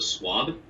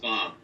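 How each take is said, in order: First: The name is said with a w sound. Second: The name is said with a b sound. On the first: This is the easier form many people use. "as if there's a W instead of a B" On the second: This is the name's own pronunciation. "It's pronounced Svab"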